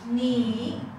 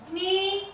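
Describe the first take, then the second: First: The pitch dips down, then comes up. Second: The pitch stays high and level. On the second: "the the first"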